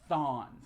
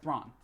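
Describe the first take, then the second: First: No r sound follows the th. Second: An r sound follows the th. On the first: The speaker calls it right. "Maybe it's Thawne" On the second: The speaker calls it wrong. "so I was saying it wrong"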